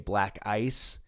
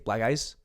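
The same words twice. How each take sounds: First: Both words are said clearly and separately. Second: The words run together, sounding like 'black guys'.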